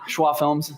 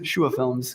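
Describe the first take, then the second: First: The name is said as "Schwa". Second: The name is said as "Shua". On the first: The speaker calls it wrong. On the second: The speaker calls it right.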